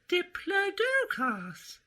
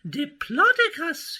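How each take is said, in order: First: The stress is not on the 'plod' syllable. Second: The stress is on the 'plod' syllable. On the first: The speaker calls it wrong. "My name you've mispronounced" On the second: The speaker calls it right. "so a plodding name is best for me"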